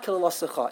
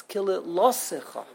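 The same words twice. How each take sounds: First: KILILOSICHA run quickly, weight off LO onto CHA; wrong stress, on the end. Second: KILILOSICHA with a pause, then a held LO; stress on the lamed. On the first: Teacher showing what it's not, stress on last syllable. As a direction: hurry through KILILOSICHA to its final CHA. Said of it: "It's not". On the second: Teacher correcting the emphasis, stress on LO. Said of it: "put the emphasis in the right place". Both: Shown as a demonstration.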